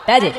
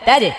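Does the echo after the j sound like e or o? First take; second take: e; e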